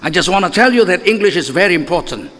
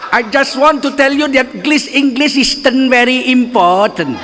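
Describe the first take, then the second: First: It is spoken with an English accent. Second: It is spoken with a Madurese accent. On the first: The speaker calls it right. "enak dengarnya karena logatnya Inggris" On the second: The speaker calls it wrong. "Coba kalau bahasa Inggris logat Madura"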